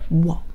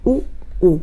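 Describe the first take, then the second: First: The vowels are blended quickly into one glide. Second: Two vowels are said slowly as separate sounds.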